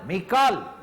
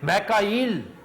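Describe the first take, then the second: First: The name has two syllables, ending 'kaal'. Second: The name has three syllables, ending 'a-il'. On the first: The speaker calls it right. "मैकाल है" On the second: The speaker calls it wrong. "मैकाइल भी गलत है"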